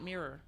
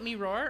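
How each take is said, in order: First: It sounds like the single word mirror. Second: It sounds like two words, me and roar. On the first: "or should I be pronouncing it Mirror?" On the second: "should I be pronouncing it Me Roar"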